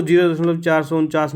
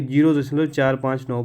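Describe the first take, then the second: First: "चार सौ उनचास" read as one whole number; wrong decimal reading. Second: "चार पाँच नौ" read as separate digits. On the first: Teacher showing students the wrong reading, "चार सौ उनचास" as one number. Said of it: "नहीं पढ़ेंगे". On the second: Teacher showing students the right reading, "चार पाँच नौ" digit by digit. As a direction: give each of "चार", "पाँच", "नौ" as its own digit. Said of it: "पढ़ेंगे". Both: Shown as a demonstration.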